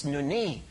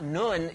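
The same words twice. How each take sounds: First: "nuni" said noo-nee, two syllables with a clear final ee; correct Greek nuni. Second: "nun" said as a short single syllable, noon; the short "nun", one syllable, no ending; wrong form nun. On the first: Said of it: "It's just not nun". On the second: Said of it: "it's nuni". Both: Shown as a demonstration.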